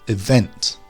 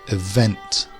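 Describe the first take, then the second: Both takes have the same delivery.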